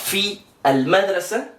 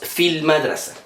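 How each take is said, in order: First: The vowel before the L is pronounced separately. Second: The vowel is dropped, linking straight into the L. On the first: The speaker calls it wrong. "no decimos fi al madrasa" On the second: The speaker calls it right. "sino que decimos fil madrasa"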